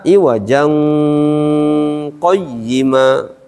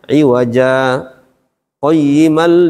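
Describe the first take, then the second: First: The words run together with a nasal link. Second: A brief stop separates the two words. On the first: The speaker calls it wrong. "Jangan dibaca iwajang qayyima" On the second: The speaker calls it right. "berhenti sejenak baru masuk"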